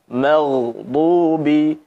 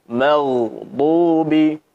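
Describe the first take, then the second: The two takes are said the same way.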